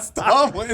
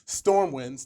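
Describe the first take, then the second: First: It is said in a Southern accent, without R. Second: It is said in a standard accent.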